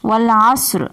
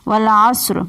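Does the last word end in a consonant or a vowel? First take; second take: consonant; consonant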